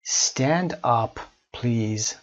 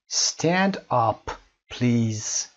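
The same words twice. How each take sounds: The two takes are said the same way.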